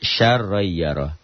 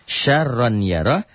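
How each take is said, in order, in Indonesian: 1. Bunyi n menyatu dengan y yang mengikutinya. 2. Bunyi n terdengar jelas sebelum y.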